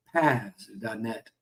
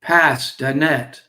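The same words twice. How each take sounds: First: "pas" as one word, slow; drawn-out "pas dot net". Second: Slow, loud "pas dot net" like a fisherman calling for help; fisherman calling his buddy. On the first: Shown as a demonstration. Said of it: "That's what a fisherman would say". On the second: Acted. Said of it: "He turns around to his buddy and he says".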